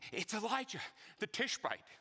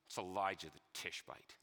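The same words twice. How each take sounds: First: It is said in a hopeful, expectant tone. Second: It is said in a sneering, contemptuous tone. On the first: The speaker is glad the prophet is here. "with expectation and hope" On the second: The speaker scorns the prophet. "he said it with a sneer"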